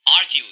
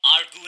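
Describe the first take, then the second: First: आर्ग्यू said as "AR-gyoo", with a y glide; correct "ar-gyu" pronunciation. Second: आर्ग्यू said as "ar-goo", without the y glide; mispronounced आर्ग्यू. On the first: Teacher correcting learners on the word, आर्ग्यू pronounced carefully as "ar-gyoo". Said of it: "ये word होगा आर्ग्यू". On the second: Teacher showing learners the mistake to avoid, आर्ग्यू mispronounced as "ar-goo". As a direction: say आर्ग्यू wrongly, with a plain "goo" ending. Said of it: "इस word को आप आर्ग्यू नहीं बोलेंगे". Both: Shown as a demonstration.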